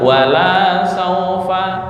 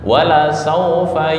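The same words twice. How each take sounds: First: The vowel after the L is drawn out long. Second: The vowel after the L is kept short. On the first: It will not happen. "Wala itu kepanjangan artinya tidak" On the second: And surely it will happen. "sama dengan wala saufa yu'tika"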